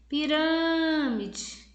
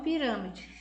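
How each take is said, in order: First: "Pirâmide" called high, "râ" held very long; calling out, drawn-out RÂ. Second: Said in the usual way. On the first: Shown as a demonstration. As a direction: stretch the "râ" in "Pirâmide" like a far-off call. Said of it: "você vai chamar por ela". (chamando de longe, "Pirâmide" com o "râ" agudo e bem alongado) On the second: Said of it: "no quadro aí que vocês estão vendo".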